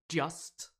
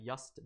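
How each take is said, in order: First: The word has a standard English pronunciation. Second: The word has a Swedish-accented pronunciation. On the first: The speaker calls it right. "It's supposed to be just" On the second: The speaker calls it wrong. "I pronounce just incorrectly"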